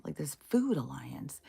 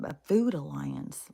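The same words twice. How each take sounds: First: Whispered repeat of the phrase; breathy aside whisper. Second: Said in the usual way. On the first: Shown as a demonstration. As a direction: drop to a whisper on it.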